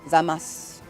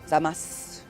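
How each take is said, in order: First: The final vowel is dropped after the s. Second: The final vowel is dropped after the s.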